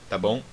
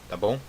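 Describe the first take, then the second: Both takes have the same delivery.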